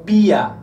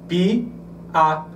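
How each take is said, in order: First: The two vowels run together without a break. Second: The two vowels are separated by a break. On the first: The vowels form a diphthong. "ou pia" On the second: The vowels form a hiatus, not a diphthong. "qual seria a análise? Pi, a"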